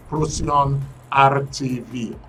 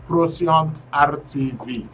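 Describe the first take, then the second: No difference in how they are said.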